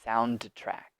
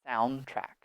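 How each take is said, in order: First: The d sound is pronounced before track. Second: The d sound is dropped before track. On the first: The speaker calls it wrong. "we do not say sound track" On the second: The speaker calls it right. "We just just remove the D"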